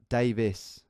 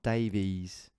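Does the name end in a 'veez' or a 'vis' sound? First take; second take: vis; veez. First: The name ends with a short 'vis' sound. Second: The name ends with a long 'veez' sound. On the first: The speaker calls it right. "Davis, not Davies" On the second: The speaker calls it wrong. "not Davies. None of that"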